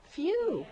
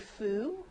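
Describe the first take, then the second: First: The vowel is a yoo sound with a glide. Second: The vowel is a plain oo sound. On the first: The speaker calls it right. "you as in few" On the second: The speaker calls it wrong. "You don't say foo"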